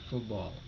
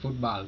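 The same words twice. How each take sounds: First: The vowel in 'ball' sounds like 'aw'. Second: The vowel in 'ball' sounds like 'ah'. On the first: The speaker calls it right. "A nya berubah jadi O" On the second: The speaker calls it wrong. "bukan football"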